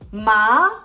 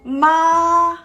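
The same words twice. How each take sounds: First: The pitch rises toward the end. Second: The pitch stays level throughout. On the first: "The second tone is the rising tone. It goes up" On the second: "This part is flat tone. Your pitch of the voice is flat"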